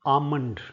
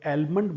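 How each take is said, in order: First: The word is said without an L sound. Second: The word is said with an L sound. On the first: The speaker calls it right. "ये शब्द होता है आमंड" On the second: The speaker calls it wrong. "आमतौर पर लोग एलमंड बोलते हैं"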